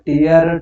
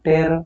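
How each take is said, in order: First: The vowel sounds like 'ear'. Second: The vowel sounds like 'air'. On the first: It means a drop from the eye. "ಕಣ್ಣೀರು" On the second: It means to rip something. "ಹರಿ"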